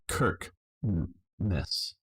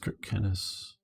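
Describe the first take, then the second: First: The name is said in two syllables. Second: The name is said in three syllables. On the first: The speaker calls it wrong. "I wouldn't want to pronounce it Kirk Ness" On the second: The speaker calls it right. "but I think it is Kirk Kennis"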